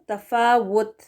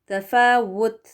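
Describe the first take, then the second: No difference in how they are said.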